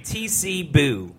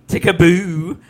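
First: The first part is spelled out as letters. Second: The whole name is read as one word. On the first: The speaker calls it right. "I say TC Boo" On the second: The speaker calls it wrong. "I don't say Tickaboo"

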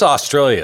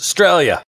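First: The word is said with extra syllables. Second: The word is said with fewer syllables. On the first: The speaker calls it wrong. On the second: The speaker calls it right.

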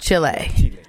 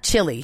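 First: It is said the Spanish way, like chee-leh. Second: It is said the English way, like chilly. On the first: The speaker calls it right. "I like the way you say it even better" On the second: The speaker calls it wrong. "And not Chile"

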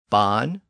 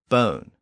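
First: The vowel is at its lowest. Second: The vowel is at its highest. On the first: This is the Old English form. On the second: This is the Modern English form.

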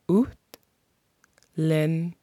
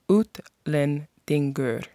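First: The word is said slowly. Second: The word is said at normal speed.

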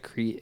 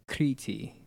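First: It is said as one English syllable, 'kreet'. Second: It is said with two syllables, 'KREE-tee'. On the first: "if I said it like an American" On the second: "In the modern phonetic spelling, it would be K-R accent I-T-I"

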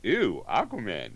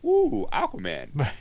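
First: It sounds disgusted and dismissive. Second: It sounds delighted and eager.

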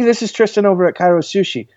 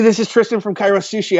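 First: It is said slowly and calmly. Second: It is said fast and rushed.

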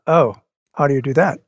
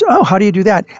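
First: It sounds puzzled and confused. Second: It sounds curious and interested.

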